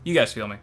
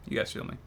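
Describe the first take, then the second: First: Said in the usual way. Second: "You guys feel me" breathed, no voice; whispered aside to viewers. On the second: Real, not acted. Repeated line, whispered.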